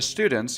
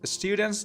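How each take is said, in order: First: It is said with an American accent. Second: It is said with a British accent.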